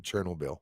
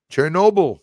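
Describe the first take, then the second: First: Chernobyl as "SHER-nul-beel"; rejected pronunciation. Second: Chernobyl as "cher-NO-bull", high and loud; others' pronunciation. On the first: Shown as a demonstration. Host owning up to a mistake, rejected pronunciation. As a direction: say Chernobyl with the weight up front, no stressed NO. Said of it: "Yeah, it isn't Chernobyl". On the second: Retold or imitated. Host mimicking viewers' way of saying it, others' pronunciation. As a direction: punch NO in Chernobyl. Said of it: "you guys say Chernobyl".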